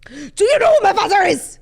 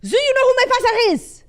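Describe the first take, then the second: First: It is said in a put-on Austrian accent. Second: It is said in a put-on French accent.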